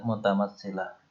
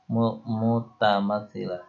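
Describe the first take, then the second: First: Said in the usual way. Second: Slow: mu, then mutamatsilah drawn out; slow, spelled-out term. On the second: Shown as a demonstration. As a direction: break off on mu, then say mutamatsilah slowly for pupils.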